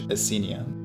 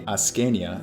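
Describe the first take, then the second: First: The c is pronounced as a soft s. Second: The c is pronounced as a hard k. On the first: "English Ascenia" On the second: "Latin would be Ascania"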